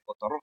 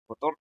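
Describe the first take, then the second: First: "cotorro" as co-to-RRÓ, rising onto the end; co-to-RRÓ, accent on the final RRO; stress on last syllable. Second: Said in the usual way. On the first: Shown as a demonstration. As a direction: quietly show the wrong final stress in "cotorro". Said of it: "no se dice cotorro". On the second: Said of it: "se dice cotorro".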